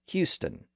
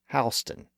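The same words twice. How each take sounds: First: The first syllable sounds like 'hew'. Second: The first syllable sounds like 'how'. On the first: It names the city in Texas. "For the city in Texas, it's pronounced" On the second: It names the street in New York City. "For the street in New York City, it's pronounced"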